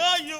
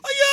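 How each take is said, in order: First: It is a small, quieter cry. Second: It is a loud, screaming cry.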